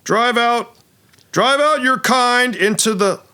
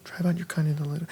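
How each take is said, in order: First: High, hammy battle proclamation; heroic dwarf actor. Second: Soft, under-the-breath run-through; muttered line recall. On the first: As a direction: declaim it like a stage paladin. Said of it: "actor says". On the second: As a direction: mumble it to yourself, searching for the line. Actor's line muttered while recalling it. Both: Acted.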